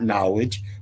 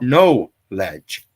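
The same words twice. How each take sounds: First: The word is said smoothly as one unit. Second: The word is split into two separate parts. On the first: The speaker calls it wrong. "It's not knowledge" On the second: The speaker calls it right. "pronounce them separately as they're meant to be pronounced"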